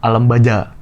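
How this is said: The middle consonant is a j sound. "Kalau di Saudi Qaf jadi jim"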